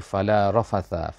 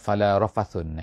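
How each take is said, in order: First: The final word ends with a short 'a'. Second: The final word ends with an 'un' sound. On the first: This is the usual reading of the verse. "ayatnya adalah dikata fala rafatha" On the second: This is an alternative reading of the verse. "qiraat eh, bacaan lain lah"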